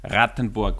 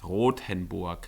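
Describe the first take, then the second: First: The name is said sounding like Rattenburg. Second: The name is said sounding like Rothenburg. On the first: The speaker calls it wrong. "he pronounces it like Rattenburg, ... but that's not how it pronounced" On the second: The speaker calls it right. "It's Rothenburg"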